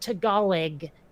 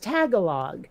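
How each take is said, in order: First: The stress is on the second syllable. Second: The stress is on the first syllable. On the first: This is how the word is actually pronounced. The speaker calls it right. "in no way would I have written Tagalog uh, that way" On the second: This is how the speaker misread the written word. The speaker calls it wrong. "I thought it was Tagalog"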